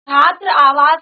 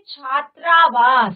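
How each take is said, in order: First: The two words are said separately. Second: The two words merge with one long vowel. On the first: The speaker calls it wrong. "छात्र आवास नहीं बोलेंगे" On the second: The speaker calls it right. "दोनों को साथ में बोलेंगे"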